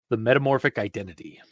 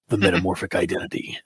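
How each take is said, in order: First: It is said in a normal speaking voice. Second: It is said in a dramatic movie-trailer voice.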